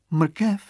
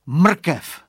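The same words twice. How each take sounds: First: High-pitched puzzled question, rising; acted wonder. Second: High, loud cry with falling end; acted exclamation. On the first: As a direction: echo the word as a puzzled little girl. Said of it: "divila se holčička". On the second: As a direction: call out a sudden bright idea. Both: A narrator's reading.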